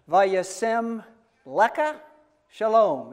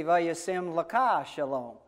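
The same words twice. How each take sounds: First: "Lecha" stressed on the first syllable, LEH-kha, raised and louder; Nate's pronunciation. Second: "Lecha" stressed on the last syllable, le-KHA, in one slower phrase; own pronunciation. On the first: Demonstrating Nate's benediction for congregation, LEH-kha stressed up front. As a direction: punch the start of Lecha, LEH-kha, between pauses. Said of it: "is the way Nate says it". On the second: Demonstrating own benediction to congregation, accent on final KHA. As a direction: run it together slowly, landing on le-KHA. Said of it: "I say". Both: Shown as a demonstration.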